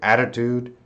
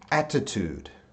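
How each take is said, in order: First: It is said in an American accent. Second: It is said in a British accent. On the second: "in British"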